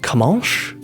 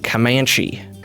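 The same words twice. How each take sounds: First: It is said with a French-sounding pronunciation. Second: It is said with an American-sounding pronunciation. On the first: "I'm putting too much of my French into it" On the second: "How did Americans say it?"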